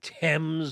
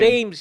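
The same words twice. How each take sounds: First: The name is pronounced the British way. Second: The name is pronounced the American way. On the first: This is how it is said in Britain. "I would assume Thames over there" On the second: This is how it is said in the United States. "here in the States"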